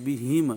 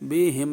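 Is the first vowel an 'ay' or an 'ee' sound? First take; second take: ee; ay. First: The first vowel is a clear 'ee' sound. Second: The first vowel is an 'ay' sound. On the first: The speaker calls it right. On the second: The speaker calls it wrong.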